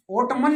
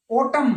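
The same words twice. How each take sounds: First: ओटमन with an extra n after m; sounded silent n. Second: ओटम ending on m, no n; silent n. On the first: Teacher showing the mistake, final n sounded in ओटमन. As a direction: add a clear n to the end of ओटमन. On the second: Teacher correcting students, ओटम without final n. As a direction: close ओटम on the m. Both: Shown as a demonstration. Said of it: "ओटमन नहीं".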